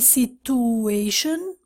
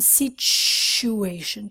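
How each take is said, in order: First: The middle has no ch sound. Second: The middle has a ch sound. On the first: The speaker calls it wrong. "Students say situation wrong" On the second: The speaker calls it right. "Ch ch ch ch ch"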